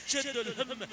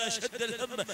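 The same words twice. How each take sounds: The two takes are said the same way.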